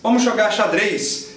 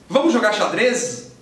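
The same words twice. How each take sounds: First: The last word ends with a voiceless S sound. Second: The last word ends with a voiced Z sound. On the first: The speaker calls it right. "Tá aí o Z escrito em posição final, sendo pronunciado S" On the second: The speaker calls it wrong. "E soa imediatamente estranho"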